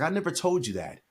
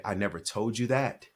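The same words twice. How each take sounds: First: High-pitched, astonished denial; protesting denial. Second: Said in the usual way. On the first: Retold or imitated. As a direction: retell a dad's startled protest. Father denying it, retold.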